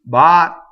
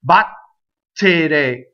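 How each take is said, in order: First: The double T is one held, unreleased stop. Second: The double T is pronounced as two Ts. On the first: The speaker calls it right. "go up to the T and don't say it" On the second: The speaker calls it wrong. "If I did two T's, it would sound like this"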